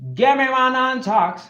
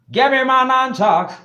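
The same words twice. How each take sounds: First: It is said in his normal accent. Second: It is said in a put-on Jamaican accent.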